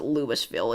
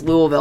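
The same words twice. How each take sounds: First: The name is said the Illinois town's way. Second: The name is said the local Kentucky way. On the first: This is the name of the Illinois town. "people there pr- pronounce it Louisville" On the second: This is the name of the Kentucky city. "I know it's Louisville"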